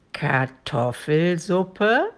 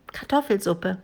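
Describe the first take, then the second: First: Very slow, drawn-out dragon voice; slow, sinister questioning with a final rise; menacing dragon question. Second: Lightly voiced, matter-of-fact child; a hint of a plucky girl; little girl answering. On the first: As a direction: stretch it out in monstrous disbelief. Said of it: "lächelte dabei in einer greulichen Weise". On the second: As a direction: confirm it simply, like a small girl. Girl answers the dragon's question. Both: A narrator's reading.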